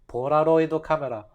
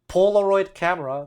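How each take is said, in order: First: It is said with a Japanese accent. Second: It is said with an English accent.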